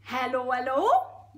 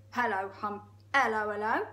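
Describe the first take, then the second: First: Geordie hippo. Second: Hello in a misfired hippo voice; wrong character voice. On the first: Hippo greeting the crocodile, Geordie accent. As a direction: sing out a hello in broad Geordie. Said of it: "It's really Geordie". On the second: Trying out Humpy Rumpy's hello, wrong voice. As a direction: greet with a rising tail, accent not yet found. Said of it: "Sorry, that's the wrong voice". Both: Acted.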